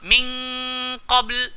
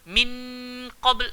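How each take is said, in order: First: The n blends into a hidden nasal ng. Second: The n is pronounced clearly with the tongue. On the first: The speaker calls it right. "Kalau kaf dengan qaf kena bunyi n ng" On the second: The speaker calls it wrong. "tak boleh baca min qabl, salah"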